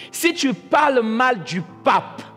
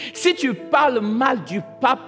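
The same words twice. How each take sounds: Both takes have the same delivery.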